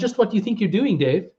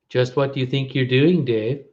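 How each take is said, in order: First: It is said in the speaker's ordinary voice. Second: It is said in a put-on computer character voice.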